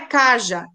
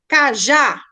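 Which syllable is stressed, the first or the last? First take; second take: first; last. First: The stress is on the first syllable. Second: The stress is on the last syllable. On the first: The speaker calls it wrong. "não é caja" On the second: The speaker calls it right. "a última sílaba é mais forte"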